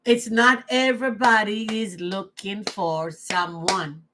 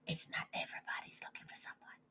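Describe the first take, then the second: First: Said in the usual way. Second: Fast, breathy whispered repeat. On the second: Shown as a demonstration. Repeating her point to herself, whispered. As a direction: whisper it to yourself, quickly.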